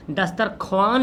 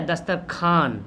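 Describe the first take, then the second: First: दस्तरख्वान with audible "w", "khowaan"; read as written. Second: दस्तरखान ending in "khaan", no "w"; silent w. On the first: Teacher showing the spelling, दस्तरख्वान with voiced व. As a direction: sound the व in दस्तरख्वान. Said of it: "लिखते हैं लेकिन पढ़ते क्या?". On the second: Teacher giving the real reading, दस्तरखान with silent व. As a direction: drop the व, say दस्तरखान. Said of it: "लेकिन पढ़ते क्या?". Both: Shown as a demonstration.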